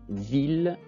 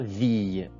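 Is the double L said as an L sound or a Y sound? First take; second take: L sound; Y sound. First: The double L is said as an L sound. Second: The double L is said as a Y sound. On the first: The speaker calls it right. "Ça se prononce ville" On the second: The speaker calls it wrong. "ça se prononce pas ville"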